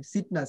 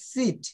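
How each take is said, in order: First: "সিট" with a short, lax i; short wrong vowel. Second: "সিট" with a long ee; long-vowel seat. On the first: Teacher rejects a mispronunciation, "সিট" with short i. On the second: Teacher models the right word, "সিট" with long ee. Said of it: "ই দীর্ঘির মতো". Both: Shown as a demonstration.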